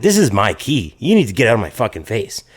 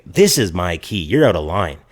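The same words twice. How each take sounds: First: Mildly heated retold retort; confrontational retort. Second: Lower, measured retort; polite objection. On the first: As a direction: stand your ground, only a touch of anger. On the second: Retold or imitated. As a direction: object civilly but firmly in a lowered pitch. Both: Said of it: "polite at this point".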